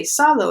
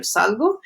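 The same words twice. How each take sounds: First: "salo" said without a g, higher; wrong verb form. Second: Said in the usual way. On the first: Shown as a demonstration. Teacher showing a learner's mistake, salo with the g left out. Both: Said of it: "instead of".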